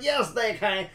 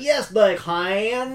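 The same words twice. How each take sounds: First: Higher, light Southern drawl on "Yes, they can"; a touch of a hammed-up Southern drawl; mock Southern accent. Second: Higher, louder, very slow Southern drawl; thick mock Southern drawl on "Yes, they can"; exaggerated Southern accent. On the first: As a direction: imitate a movie's overdone Southern accent, lightly. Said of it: "thickest Southern accent". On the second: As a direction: stretch every word like a hammed-up Southern movie actor. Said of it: "accentuate those words too far".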